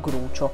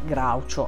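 First: The first vowel is a plain 'oo' sound. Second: The first vowel is an 'ow' glide. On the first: The speaker calls it right. "io l'ho sempre chiamato Grucio" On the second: The speaker calls it wrong. "mai Graucio"

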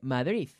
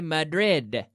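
First: The final D is soft, like a TH. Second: The final D is a hard, full D. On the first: "like a soft TH or a T sound" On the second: "I say Madrid with a hard D"

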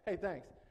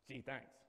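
First: It is said casually, as a routine sign-off. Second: It is said sarcastically, without meaning it.

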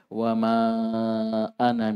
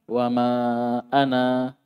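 First: The last vowel of ana is short. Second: The last vowel of ana is held long. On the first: The reading continues without a stop. "Ana, pendek" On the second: The reader stops after this word. "dua harokat"

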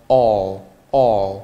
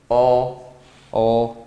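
Both takes have the same delivery.

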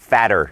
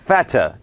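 First: The middle t is a soft flapped d sound. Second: The middle t is a clear crisp t sound. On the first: "อดัมพูดสำเนียงอเมริกันนะครับ, fatter, นะฮะดอเด็กนะครับ" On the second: "อังกฤษแบบ, BBC, นะครับออกข่าวนะครับมี, t, ชัด"

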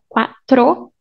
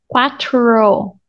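First: The r is rolled with the tongue. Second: The r is an American-style r. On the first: "making this R, quatro, tro, rolling your tongue" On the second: "So you can go to the American R"

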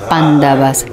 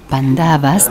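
First: It is said the way the original name sounds. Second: It is said the way Westerners say it. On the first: The speaker calls it right. "pero es Pandavas" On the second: The speaker calls it wrong. "decimos en el o, eh, occidente"

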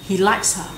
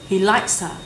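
No difference in how they are said.

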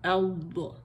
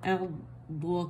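First: There is no pause, with pressure on the sound. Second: There is a pause before the second part. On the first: The speaker calls it right. "यहाँ पॉज नहीं देना, यहाँ हमने स्ट्रेस देना है इसे" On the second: The speaker calls it wrong. "Usually लोग यहाँ पॉज दे देते हैं"

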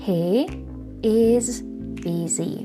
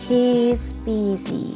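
First: He is is said as two full words. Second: He is is joined into one short syllable.

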